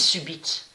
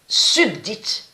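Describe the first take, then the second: First: It is said without a D sound. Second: It is said with a D sound. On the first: The speaker calls it right. "On sait que ça se dit subite" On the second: The speaker calls it wrong. "ils disent subdite"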